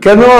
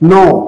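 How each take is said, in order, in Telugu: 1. ఈ పదం k శబ్దంతో మొదలవుతుంది. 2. ఈ పదం k శబ్దం లేకుండా మొదలవుతుంది.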